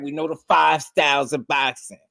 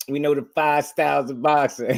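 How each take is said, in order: First: High, earnest mock boast; imitating a bro's earnest boast; imitating his bro. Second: High, sure mock boast; convinced boast impression. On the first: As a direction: boast like a true believer. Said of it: "what my bro be saying". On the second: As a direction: say it fully convinced. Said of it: "He sounded convinced".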